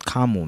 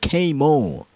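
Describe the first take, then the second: First: The first syllable sounds like 'car'. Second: The first syllable sounds like the letter K. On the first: The speaker calls it wrong. "it sounds like you're saying Karma" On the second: The speaker calls it right. "Like K-Mo"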